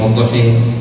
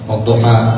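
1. الصوت الأخير ممال نحو الكسر تماماً. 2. الصوت الأخير فتحة مفتوحة تماماً. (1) "الذي يمين" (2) "فالذي يقرأ"

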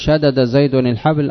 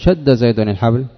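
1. يُنطق الدالان منفصلين. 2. يندمج الدالان في صوت واحد مشدد. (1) "شدد ما تنطق بها" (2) "شد"

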